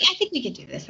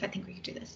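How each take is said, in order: First: Said in the usual way. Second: Unvoiced, breathy whisper. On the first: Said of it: "repeat softer". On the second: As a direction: whisper it to yourself. Repeated as a whisper.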